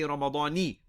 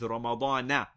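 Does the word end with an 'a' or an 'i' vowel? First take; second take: i; a. First: The word ends with an 'i' vowel. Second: The word ends with an 'a' vowel. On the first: The speaker calls it wrong. "We do not say Ramadani" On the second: The speaker calls it right. "but rather it is Ramadana"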